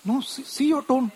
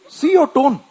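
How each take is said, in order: First: Higher, pointed wife's rebuke; a hint of the wife correcting; wife pointing out his tone, higher. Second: Higher and louder, insisting; wife repeating it louder, higher. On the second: Retold or imitated. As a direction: press harder as the wife. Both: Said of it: "my wife says".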